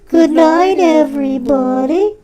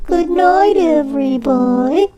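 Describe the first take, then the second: First: It is said in a plain, normal way. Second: It is said in an overdramatic way.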